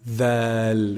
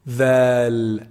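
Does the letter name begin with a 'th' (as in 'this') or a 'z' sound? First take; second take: th; th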